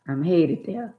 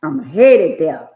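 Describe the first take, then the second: First: Said in the usual way. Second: Slow, much louder preached repeat; emphatic preacher's repeat; slow loud refrain. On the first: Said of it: "repeated refrain, first take". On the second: Real, not acted. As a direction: drive the line home slowly. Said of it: "repeated refrain, slow loud take".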